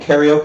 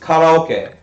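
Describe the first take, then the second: First: It is said with an American English pronunciation. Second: It is said with a Japanese pronunciation. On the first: The speaker calls it wrong. "I've become fucking westernized. I'm saying karaoke" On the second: The speaker calls it right. "It's karaoke"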